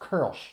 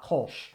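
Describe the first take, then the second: First: The vowel is the rounded umlaut ö sound. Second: The vowel is a plain o sound. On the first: The speaker calls it right. "pronounced Kölsch" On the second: The speaker calls it wrong. "not Kolsch"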